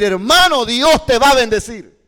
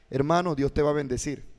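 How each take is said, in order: First: It is said loudly and forcefully. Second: It is said calmly, at normal volume.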